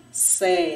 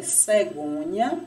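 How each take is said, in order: First: "cegonha" in three separate pieces, pausing between; split into syllables. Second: Said in the usual way. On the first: Shown as a demonstration. Teacher showing pupils what a syllable is, "cegonha" split by pauses. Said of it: "nós damos o nome de sílaba". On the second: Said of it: "exemplo de três palavrinhas".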